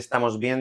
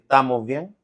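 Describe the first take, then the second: First: The first syllable of estamos is fully pronounced. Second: The first syllable of estamos is dropped. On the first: "en lugar de decir" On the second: "esa eliminación"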